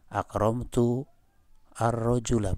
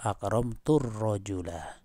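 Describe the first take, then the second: First: The hamza of al is pronounced separately. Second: The words are linked with the hamza dropped. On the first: The speaker calls it wrong. "Bukan gini" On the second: The speaker calls it right. "Tapi bacaannya dengan wasol"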